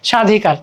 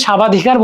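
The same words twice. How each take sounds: First: স্বাধিকার said "sha-dhikar", no b; silent b. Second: স্বাবাধিকার said "sha-ba-dhikar"; wrongly sounded b. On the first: Teacher giving what we do say, b-less স্বাধিকার. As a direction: leave the b out of স্বাধিকার. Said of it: "আমরা বলছি স্বাধিকার". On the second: Teacher showing what we don't say, b sounded in স্বাবাধিকার. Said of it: "স্বাবাধিকার বলতেছি না". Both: Shown as a demonstration.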